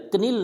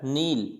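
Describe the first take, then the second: First: कनील with a k before the n; कनील, silent K wrongly voiced; sounded K. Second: नील starting on n, no k; नील with the K left mute; silent K. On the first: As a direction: put a hard k on the front of कनील. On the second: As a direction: begin नील straight on the n. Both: Shown as a demonstration. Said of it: "कनील नहीं होता है".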